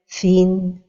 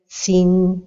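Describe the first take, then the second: First: The first consonant is a th sound. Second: The first consonant is an s sound. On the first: The speaker calls it right. "la prononciation correcte est" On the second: The speaker calls it wrong. "changer le son de la lettre vers le son de la lettre sin"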